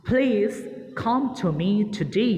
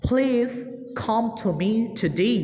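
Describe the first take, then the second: Both takes have the same delivery.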